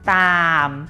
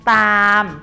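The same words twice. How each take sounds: First: The word is said on a low tone. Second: The word is said on a level mid tone. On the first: "ตามเป็นเสียงเอก" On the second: "ตามเป็นเสียงสามัญ"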